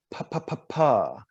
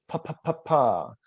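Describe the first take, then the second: First: Crisp popped "Pa, pa, pa, pa" at the lips; crisp consonant drill. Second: "Pa, pa, pa, pa" again, crisp at the lips; repeated consonant drill. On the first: Voice coach drilling lip consonants, crisp. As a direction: spit out each "pa" sharply. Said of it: "by repeating these consonants". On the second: Voice coach repeating the lip drill, crisp. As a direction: tap each "pa" off the lips. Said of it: "That's at the very tip of the lips". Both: Shown as a demonstration.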